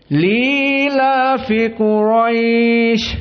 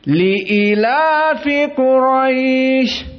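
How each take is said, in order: First: No glottal stop; a long vowel follows the l. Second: A glottal stop with a short i, not lengthened. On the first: "menghapuskan hamzah... lam yang kasrah bertemu dengan ya langsung menjadi mad tabi'i" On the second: "hamzahnya dikasrohkan tanpa mad"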